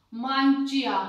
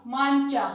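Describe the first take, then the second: First: मांचिया read letter by letter with the i sounded, louder; wrong spelled-out reading. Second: मांचा said with the i silent, louder; correct reading. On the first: Teacher shows students the wrong way, reading मांचिया as spelled. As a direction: spell out मांचिया as written, i and all. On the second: Teacher shows students the right way, saying मांचा with no i. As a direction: say मांचा, dropping the i entirely. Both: Shown as a demonstration. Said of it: "इसको हम कैसे पढ़ेंगे".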